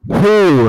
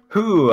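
First: The word is said with strong emphasis. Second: The word is said plainly.

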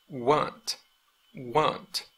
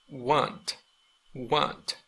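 The two takes are said the same way.

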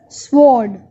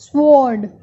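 No difference in how they are said.

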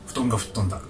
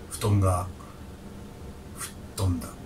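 First: It is said in a lighter, less weighty way. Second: It is said in a heavier, more solemn way. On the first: "なんか番組名みたいな感じ" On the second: "重大なニュースみたいな感じで言ってる感じがして"

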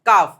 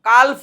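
First: No L sound is pronounced in the word. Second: An L sound is pronounced in the word. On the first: The speaker calls it right. "F silent છે" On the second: The speaker calls it wrong. "કાલ્ફ નહીં"

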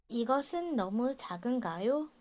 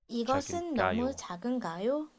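No difference in how they are said.

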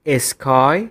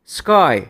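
First: A vowel is added around the s and k. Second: The s and k are said together without a vowel. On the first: The speaker calls it wrong. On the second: The speaker calls it right.

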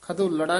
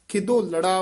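First: The first syllable lacks an 'i' vowel. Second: The first syllable has an 'i' vowel. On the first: The speaker calls it wrong. "ਖਿਦੋਲੜਾ ਨਹੀਂ ਕਹਿਣਾ" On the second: The speaker calls it right. "ਖਿਦੋਲੜਾ ਉਚਾਰਨ ਕਰਨਾ"

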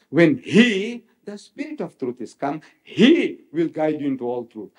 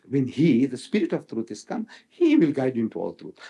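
First: The pronouns 'he' are read with clear emphasis. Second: The pronouns are read without special emphasis.

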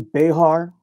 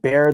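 First: It is said as two syllables, like be-har. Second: It is said as one syllable, like bear. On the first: This is how some other people say it. "Other people may say Behar, and that's correct too" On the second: This is how local people say it. "we pronounce it Bear. The X is silent"

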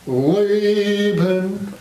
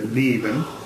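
First: The L is made at the back, American-style. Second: The L is made at the front, German-style.

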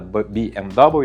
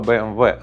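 First: The letters are read with English letter names. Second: The letters are read with German letter names. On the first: The speaker calls it wrong. "а не BMW, як кажуть американці" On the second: The speaker calls it right. "Саме BMW"

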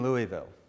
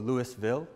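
First: It is said with a non-Georgia pronunciation. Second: It is said with a Georgia pronunciation.

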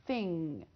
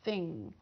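No difference in how they are said.

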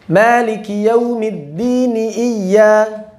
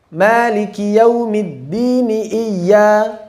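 No difference in how they are said.

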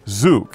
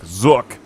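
First: The vowel is long, rhyming with 'zoo'. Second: The vowel is short, rhyming with 'book'. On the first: The speaker calls it right. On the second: The speaker calls it wrong.

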